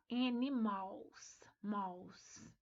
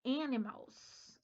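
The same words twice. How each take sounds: First: Slow "animals" split up, ending in "mals"; error demo. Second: Slow "animals" starting with an E sound; English "animals". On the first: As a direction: stretch "animals" then drop "mals". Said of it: "A gente começa com E". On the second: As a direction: say "animals" as "énimals", slowly. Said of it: "A palavra animals... tem som de E". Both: Shown as a demonstration.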